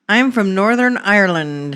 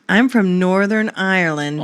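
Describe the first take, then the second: First: It is said in a put-on Irish accent. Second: It is said in her normal accent.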